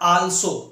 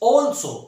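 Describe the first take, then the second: First: The first vowel is an open unrounded 'aa'. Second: The first vowel is a rounded 'aw'. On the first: The speaker calls it wrong. "It's not आल्सो" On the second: The speaker calls it right. "It's ऑल्सो"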